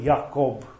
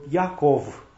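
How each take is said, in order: First: The name ends with a B sound. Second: The name ends with a V sound. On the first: This is the form from other translations. The speaker calls it wrong. "nu Iacob" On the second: This is the old Greek-based form. The speaker calls it right. "În loc de B este tot una V"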